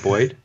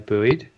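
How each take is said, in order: First: The word is said with a non-American pronunciation. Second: The word is said with an American pronunciation. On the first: "we would never say that. We'd always say buoyed" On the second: "I think Americans say buoy, so you could probably say buoyed"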